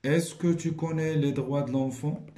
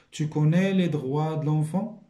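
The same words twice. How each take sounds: First: Said in the usual way. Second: Tu connais les droits de l'enfant? with the pitch rising at the end; rising question intonation. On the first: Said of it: "La locution". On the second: Shown as a demonstration. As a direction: make it a question by rising tune only. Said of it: "الطريقة ديال لانطوناسيون". (intonation montante sur « tu connais les droits de l'enfant? »)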